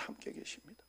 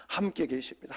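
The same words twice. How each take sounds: First: Whispered prayer. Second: Softer, inward prayer line; quiet prayer. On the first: (속삭이는 기도) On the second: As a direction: pray it quietly to yourself. (조용히 기도하듯) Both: Shown as a demonstration. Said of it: "하고 하나님을 불러야 돼요".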